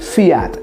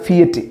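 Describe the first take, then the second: First: The name is said the original Italian way. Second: The name is said the usual local way. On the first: The speaker calls it right. "Correct pronunciation" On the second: The speaker calls it wrong. "നമ്മളൊക്കെ പറയുന്ന ഫിയറ്റ്"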